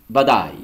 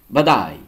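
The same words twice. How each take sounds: No difference in how they are said.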